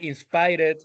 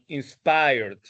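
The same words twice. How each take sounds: First: The ending is pronounced the Spanish way. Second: The ending is pronounced the English way. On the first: The speaker calls it wrong. "All of those words are bad pronounced" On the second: The speaker calls it right. "It should have been"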